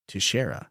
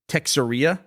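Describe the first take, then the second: First: The name begins with a 'taysh' sound, unlike Texas. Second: The name begins with a 'tex' sound, like Texas. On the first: The speaker calls it right. "the correct way to pronounce that is Teixeira" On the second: The speaker calls it wrong. "which is like a portmanteau of Texas and cafeteria"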